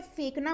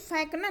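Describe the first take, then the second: First: फेंकना with close "e", as fenkna; correct फेंकना. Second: फेंकना with open "ai", as fainkna; mispronounced फेंकना. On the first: Teacher gives the right form, फेंकना as fenkna. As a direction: keep the first vowel of फेंकना a pure e. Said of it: "फेंकना होता है". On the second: Teacher rejecting a common error, फेंकना said as fainkna. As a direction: widen the first vowel of फेंकना to ai. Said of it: "फेंकना नहीं होता है". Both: Shown as a demonstration.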